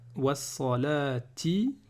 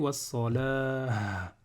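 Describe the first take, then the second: First: The word ends with a 'ti' sound. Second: The word ends with an 'ah' sound. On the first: The reading continues without stopping. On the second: The reader stops on this word.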